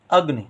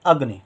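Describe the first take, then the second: No difference in how they are said.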